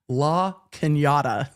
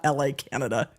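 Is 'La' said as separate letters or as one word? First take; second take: one word; letters. First: The first part is said as one word. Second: The first part is said as two letters. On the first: The speaker calls it right. "It's La Canada" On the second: The speaker calls it wrong. "not L A, Canada"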